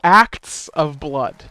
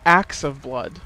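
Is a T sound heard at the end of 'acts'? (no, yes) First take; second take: yes; no. First: The T in 'acts' is clearly pronounced. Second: The T in 'acts' is dropped. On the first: The speaker calls it right. "You need to pronounce that T in there" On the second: The speaker calls it wrong.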